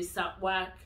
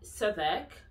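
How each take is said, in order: First: The W sound is pronounced. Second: The W sound is silent. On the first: The speaker calls it wrong. "you don't say Southwark" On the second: The speaker calls it right. "the W is silent in Southwark"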